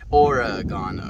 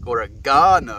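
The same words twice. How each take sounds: First: The stress falls on the 'reg' syllable. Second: The stress falls on the 'ga' syllable. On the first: The speaker calls it right. "the E one" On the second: The speaker calls it wrong. "not Ora. Ga"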